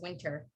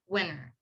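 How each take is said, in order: First: The t sound is clearly pronounced. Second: The t sound is dropped, like winner. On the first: "But I personally say it as a winter" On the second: "some people also say W I N T E R as winter"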